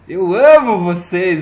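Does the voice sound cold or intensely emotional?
emotional. It is said with strong, intense emotion.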